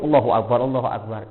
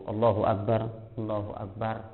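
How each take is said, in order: First: The phrases run together without a break. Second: A short pause separates the phrases. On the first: The prayer is rushed without a moment of stillness. The speaker calls it wrong. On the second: There is a brief moment of stillness in each position. The speaker calls it right. "Ada berhentinya sejenak"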